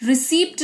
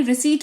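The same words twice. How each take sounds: First: रिसीप्ट with the P sounded; wrong pronunciation. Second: रिसीट with a silent P; correct pronunciation. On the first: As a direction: say रिसीप्ट with an audible PT ending. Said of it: "रिसीप्ट नहीं". (गलत उच्चारण, रिसीप्ट में प बोलकर) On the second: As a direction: say रिसीट, no P before the T. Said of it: "रिसीट पढ़ेंगे". (सही उच्चारण, रिसीट में प मौन) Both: Shown as a demonstration.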